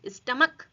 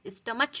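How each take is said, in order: First: The word ends with a k sound. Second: The word ends with a ch sound. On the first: The speaker calls it right. "ये C H का pronunciation क्या हो रहा है, क" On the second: The speaker calls it wrong. "यहाँ पर हम स्टमच नहीं बोलेंगे"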